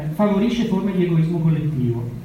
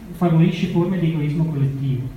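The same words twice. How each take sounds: Both takes have the same delivery.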